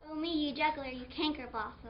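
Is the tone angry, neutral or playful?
playful. It is said playfully, teasing a friend.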